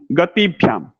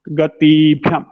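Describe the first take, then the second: First: गतिभ्याम with ति kept short; no lengthening on ति in गतिभ्याम; corrected short vowel. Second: गतिभ्याम with a long, louder ee in ति; the faulty गतिभ्याम, ति held long; wrong long vowel. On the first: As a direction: say गतिभ्याम with a brief i before भ्याम. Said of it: "ह्रस्व ई". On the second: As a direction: stretch ति before भ्याम in गतिभ्याम. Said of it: "नहीं". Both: Shown as a demonstration.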